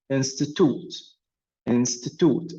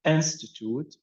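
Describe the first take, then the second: First: "institute" as a verb, weight moved off the first syllable; second-syllable stress. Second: "institute" as a noun, stressed IN-sti-tute; first-syllable stress. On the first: Teacher contrasting verb with noun, "institute" stressed after the first syllable. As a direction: shift the stress later in "institute", away from "in". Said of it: "if you press the second syllable". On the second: Teacher contrasting noun and verb, "institute" stressed on IN. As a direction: put the weight on the opening "in" of "institute". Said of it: "on the first syllable".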